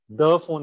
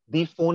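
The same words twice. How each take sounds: First: The word 'the' is said with a short 'uh' vowel. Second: The word 'the' is said with a long 'ee' vowel. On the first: The speaker calls it right. "is correct" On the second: The speaker calls it wrong. "is not correct"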